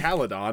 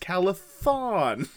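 First: The middle consonant is a plain d sound. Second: The middle consonant is a th sound. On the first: The speaker calls it wrong. "it's not like Caledon" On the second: The speaker calls it right. "it's Calathon"

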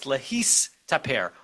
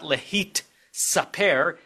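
First: The s sound comes before the t sound. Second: The t sound comes before the s sound. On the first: The speaker calls it right. "it's lehistaper" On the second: The speaker calls it wrong. "It's not lehit saper"

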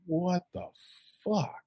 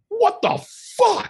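First: It is said slowly and calmly, without anger. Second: It is said loudly and with clear anger. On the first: The person is puzzled about what just happened. "he just comes up real slow and he's like" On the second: The person is furious about what just happened. "And he gets really fucking angry"

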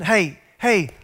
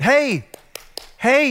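First: It is said in a softer voice. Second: It is said in a louder voice.

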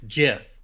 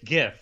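First: It begins with a soft G, like giraffe. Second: It begins with a hard G, like gift. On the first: The speaker calls it wrong. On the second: The speaker calls it right.

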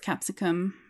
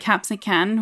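First: The word ends with an M sound. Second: The word ends with an N sound. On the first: The speaker calls it right. "but it's capsicum" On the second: The speaker calls it wrong. "I sometimes say capsican with an N sound at the end"

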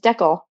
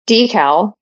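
First: It is said with a Canadian pronunciation. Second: It is said with an American pronunciation.

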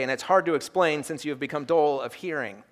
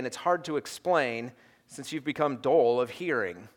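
First: It is read in a plain, neutral tone. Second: It is read in a sarcastic, mocking tone.

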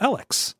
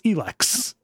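First: The first vowel is a short E. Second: The first vowel is a long E. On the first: This is the reading the spelling suggests. "that's how you would say that" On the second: This is how it is actually pronounced. "there's no reason for that to be a long E"

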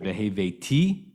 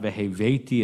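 First: The stress follows the biblical cantillation pattern. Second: The stress follows the modern Hebrew pattern. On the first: The speaker calls it right. "but veheveti. Right, that's what the trip is" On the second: The speaker calls it wrong. "It's not veheveti as it would be in modern Hebrew"

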